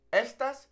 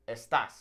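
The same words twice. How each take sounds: First: "Estas" as ES-tas, much higher start; stress on first syllable. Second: "estás" as es-TÁS, dropped lower; stress on final syllable. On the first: Teacher setting two words side by side, "Estas" stressed on ES. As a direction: pitch up and hit the ES of "Estas". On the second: Teacher giving the contrasting word, "estás" stressed on TÁS. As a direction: put the weight on the TÁS of "estás". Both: Shown as a demonstration. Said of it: "not estas".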